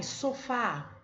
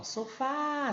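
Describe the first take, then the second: First: Said in the usual way. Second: "sofá" said slowly with the stress on "fá"; stress on the last syllable. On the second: Shown as a demonstration. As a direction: stretch "sofá" and land on "fá". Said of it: "você chama a sílaba forte".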